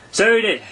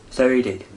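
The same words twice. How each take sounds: First: High, loud emphatic agreement; loud, high first so he did; emphatic Gryphon agreement. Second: Said in the usual way. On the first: A narrator's reading. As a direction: agree with a wistful sigh, firmly first. Gryphon sighing agreement, first take.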